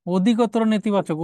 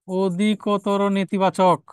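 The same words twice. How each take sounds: First: Said in the usual way. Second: Very slow, drawn out word by word; slow dictation. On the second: Real, not acted. Teacher repeats the answer for students, very slowly. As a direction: stretch out অধিকতর নেতিবাচক as if for note-taking.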